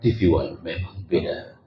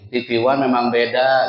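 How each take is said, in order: First: It is said in a deep announcer voice. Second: It is said in a plain everyday voice.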